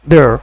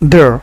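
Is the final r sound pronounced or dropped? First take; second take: pronounced; pronounced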